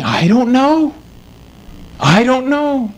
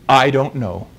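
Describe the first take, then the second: First: Higher, anxious voicing of the rabbi's doubt; preacher acting out the old rabbi's fear of hell, in a higher, worried voice; imitating the troubled rabbi. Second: Said in the usual way. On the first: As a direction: let the rabbi's uncertainty come through, voiced higher. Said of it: "And he was saying". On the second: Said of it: "He said".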